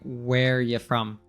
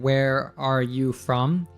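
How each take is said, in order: First: The word 'are' is left out. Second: Every word is said, including 'are'. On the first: "He removes the are. He's saying" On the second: "he's not saying"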